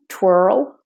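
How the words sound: An R sound is heard before the L. "For the American, you do say the R before the L"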